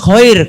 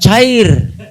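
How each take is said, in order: First: The word starts with a throaty kh sound. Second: The word starts with a plain ch sound. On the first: The speaker calls it right. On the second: The speaker calls it wrong. "Bukan cair Ustaz"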